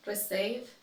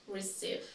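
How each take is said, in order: First: "Receive" as reh-SAYV; "Receive" with second syllable like save; mispronounced. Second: "receive" as ri-SEEV; "receive" with second syllable like see; correct pronunciation. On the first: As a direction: say "Receive" with eh vowels. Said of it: "I will say each one incorrectly". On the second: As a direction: say "receive" with a long ee. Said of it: "then I'll say it correctly". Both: Shown as a demonstration.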